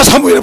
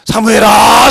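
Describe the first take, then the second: First: 사무엘아 shouted louder and higher the second time; louder call. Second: Louder call of the name 사무엘아, rising at the end. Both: Retold or imitated. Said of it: "불러서".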